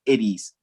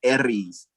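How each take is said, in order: First: The R roll is left incomplete, not rolled. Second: The R is fully rolled, sounding like a D. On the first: "what if you just didn't complete the roll" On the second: "You hear a D in the roll"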